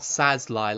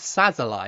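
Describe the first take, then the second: First: The name is said with two syllables. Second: The name is said with three syllables. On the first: The speaker calls it wrong. "Not Sazlai, like I've been saying" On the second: The speaker calls it right. "I think it's Sazalai"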